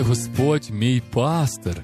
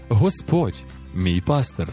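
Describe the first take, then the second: First: The emphasis falls on the word пастир. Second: The emphasis falls on the word Господь. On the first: His role is specifically that of a shepherd. "розуміючи, що Він саме є пастир" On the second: It is the Lord, master of life, who shepherds. "Таким чином ми виділяємо саме Бога як Господа"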